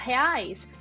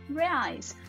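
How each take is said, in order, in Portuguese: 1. É dita com sotaque do português brasileiro. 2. É dita com sotaque do inglês americano. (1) "Em vez de você falar reais" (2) "você fala reais"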